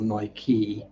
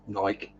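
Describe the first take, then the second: First: The word has two syllables with a final vowel. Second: The word has one syllable, rhyming with pike. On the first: The speaker calls it wrong. "not Nike or Nike" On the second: The speaker calls it right. "it's Nike ... Rhymes with ... Pike"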